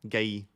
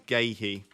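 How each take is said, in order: First: The name is said without any h sound. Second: The name has an h sound between syllables. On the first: The speaker calls it right. "I'll get rid of the huh" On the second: The speaker calls it wrong. "not Gahey"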